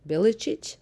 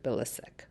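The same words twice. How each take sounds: First: The surname is said with its original family pronunciation. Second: The surname is said the common Canadian way. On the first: "the proper way of saying my last name is Bilicic" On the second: "in Canada, everybody pronounces it Bilicic"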